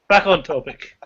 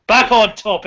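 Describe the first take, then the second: First: Said in the usual way. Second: Louder and higher, a chairman calling the room to order; mock stern call. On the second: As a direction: bang the gavel on "Back on topic".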